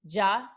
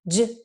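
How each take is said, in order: First: The sound ends with an added uh vowel. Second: The sound is clipped short with no vowel after. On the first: The speaker calls it wrong. "make sure you don't say that schwa. Um, so it's not g, ja" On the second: The speaker calls it right. "make sure your letters are just super short"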